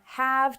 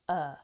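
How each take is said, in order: First: The word is pronounced in full. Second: The word shrinks to a short uh. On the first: "from have" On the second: "to uh"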